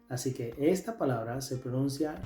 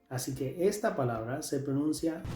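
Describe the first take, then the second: No difference in how they are said.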